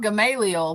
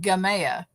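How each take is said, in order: First: The name is said in full, as written. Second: The name is said in a shortened, clipped form. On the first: This is the written form of the name. "it's spelled Gamaliel" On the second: This is how the local people say it. "but it's pronounced Gamea"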